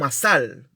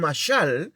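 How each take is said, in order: First: The middle consonant sounds softer, like s. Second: The middle consonant sounds harsher, like sh.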